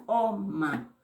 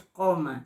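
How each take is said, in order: First: COMA opening on an ejective q from the back of the throat; hard throat pop starting COMA; glottalized Q. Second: Said in the usual way. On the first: Shown as a demonstration. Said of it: "con el apóstrofo". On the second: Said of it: "ya no es coma".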